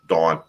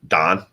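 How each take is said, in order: First: The name sounds like the word dawn. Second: The name sounds like the name Don. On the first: This is how the speaker's own family says it. "we we we pronounce it like that, dawn, like the you know the morning dawn" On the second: This is how the in-laws say it. "they all pronounce her last her first name Don, like D O N"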